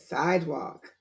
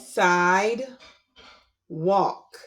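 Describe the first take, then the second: First: The two parts are blended quickly together. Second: The two parts are separated by a pause. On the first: "Say it fast"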